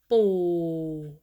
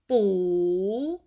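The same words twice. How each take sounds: First: The pitch stays low. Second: The pitch rises across the syllable. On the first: "low tone" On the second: "rising tone"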